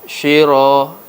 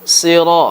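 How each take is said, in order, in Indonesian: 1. Kata ini diawali dengan bunyi 'sh'. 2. Kata ini diawali dengan bunyi 's' emfatik. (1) "Huruf sad sering diubah menjadi huruf shin. ... salah" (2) "Yang benar sira, huruf sad"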